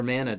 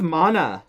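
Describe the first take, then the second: First: Mana rhyming with banana, American style; Mana as MAN-a. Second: First vowel of Mana as in "father"; Mana as MAH-na. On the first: Host offering the other pronunciation, Mana said MAN-a. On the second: Host announcing Secret of Mana, Mana said MAH-na. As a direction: say Mana with a broad "ah". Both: Shown as a demonstration. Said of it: "depending on how you say it".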